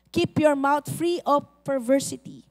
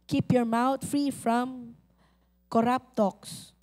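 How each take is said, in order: First: Said in the usual way. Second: Slow deliberate reading. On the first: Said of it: "repeats verse slowly". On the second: Shown as a demonstration. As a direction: Keep your mouth read word by word, slowly. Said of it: "slow repeated reading". (dahan-dahang pagbasa ng talata)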